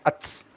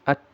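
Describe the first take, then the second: First: The final sound is a hissing s sound. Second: The final sound is a soft puff of air. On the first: The speaker calls it wrong. "bukan ats" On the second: The speaker calls it right. "tapi at"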